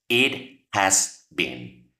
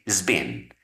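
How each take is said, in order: First: All three words are said in full. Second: The phrase is shortened and contracted.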